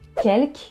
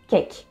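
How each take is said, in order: First: The L sound is pronounced. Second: The L sound is dropped.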